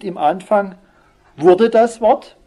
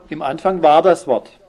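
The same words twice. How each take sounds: First: „wurde das Wort“ höher, lauter und langsam gezogen; falsche Version betont. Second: Said in the usual way. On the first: Shown as a demonstration. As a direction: die falsche Lesart „wurde“ deutlich markiert vorführen. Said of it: "es heißt nicht". (falsche Fassung mit „wurde“ nachdrücklich, hoch und langsam) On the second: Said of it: "sondern, wie heißt es?".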